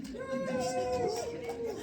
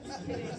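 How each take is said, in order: First: High, very slow held squeal; drawn-out joke. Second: Short, low-key laughing aside; laughing retraction. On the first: Pretend. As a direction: stretch it out on a high held note. Singsong joke retraction before usual repeat. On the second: Real, not acted. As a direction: say it briefly through a chuckle.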